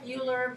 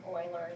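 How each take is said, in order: First: The name begins with a 'you' sound. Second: The name begins with an 'oy' sound. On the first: This is how the written name looks. The speaker calls it wrong. "it looks like Euler" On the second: This is how the name is really pronounced. The speaker calls it right. "Euler is actually how you pronounce his name"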